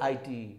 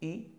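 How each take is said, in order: First: The vowel sounds like 'eye'. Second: The vowel sounds like 'ih'. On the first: The speaker calls it wrong. "এটা কিন্তু রং accent" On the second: The speaker calls it right. "So তাহলে কি? ইট"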